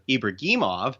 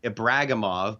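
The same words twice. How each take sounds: First: The name is said with Russian pronunciation. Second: The name is said with English pronunciation. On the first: This is the name's original form. "the correct Russian pronunciation of Ibragimov" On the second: This is how North Americans will come to say it. "eventually become Ibragimov"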